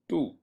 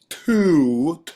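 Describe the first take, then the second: First: The t has almost no puff of breath. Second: The t has a strong puff of breath. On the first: The speaker calls it right. "you should feel very little wind coming out of your mouth" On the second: The speaker calls it wrong. "with super breath on it, then you're saying it wrong"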